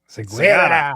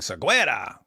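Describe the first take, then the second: First: The middle syllable sounds like 'gah'. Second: The middle syllable sounds like 'gweh'. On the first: The speaker calls it right. "It's Segara" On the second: The speaker calls it wrong. "We were pronouncing it wrong when we were saying Seguera"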